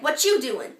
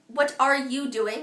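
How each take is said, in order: First: The words run together with sounds dropped. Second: Every word and consonant is pronounced distinctly. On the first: The speaker calls it wrong. "that's a normal American style" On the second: The speaker calls it right. "easier for the audience to understand"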